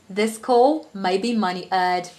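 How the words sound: It is spoken in a British accent. "So I'll start with the British accent"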